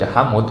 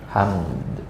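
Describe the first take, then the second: First: A vowel is inserted between the m and d. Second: The final d is pronounced faintly and softened. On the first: The speaker calls it wrong. "asal jangan dibaca hamud. Kalau hamud nggak boleh" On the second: The speaker calls it right. "yang benar qiraat hafaz kita itu dengan disamarkan"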